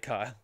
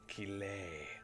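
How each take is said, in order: First: The name is said as one syllable, like Kyle. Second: The name is said as two syllables, ka-lay. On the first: This repeats a voice actor's guess. The speaker calls it wrong. "she did say Kyle" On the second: This is the intended pronunciation. The speaker calls it right. "I know that it's Calais"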